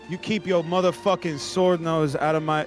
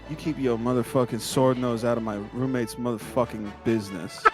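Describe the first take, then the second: First: It is said with high energy. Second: It is said with lower energy.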